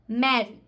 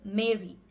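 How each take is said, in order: First: It is said in a British or Indian accent. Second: It is said in an American accent. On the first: "In the British English as well as the Indian English" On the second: "in the American accent"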